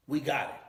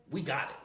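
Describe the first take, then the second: No difference in how they are said.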